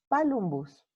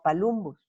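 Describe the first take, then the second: First: The stress is on the first syllable. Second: The stress is on the second syllable. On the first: The speaker calls it right. "se tenía que haber pronunciado palumbus ... como esdrújula" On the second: The speaker calls it wrong. "no palumbus"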